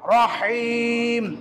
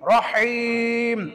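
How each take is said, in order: The two takes are said the same way.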